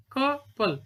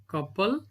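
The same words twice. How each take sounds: First: "Couple" broken as cou-ple, higher pitched; split into syllables. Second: Said in the usual way. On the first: Shown as a demonstration. Teacher counting to two, "Couple" said beat by beat. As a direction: say "Couple" in two separate beats.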